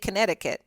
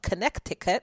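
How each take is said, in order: First: The middle c sound is silent. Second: The middle c sound is pronounced. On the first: "or do they say" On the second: "because that's how it's spelled"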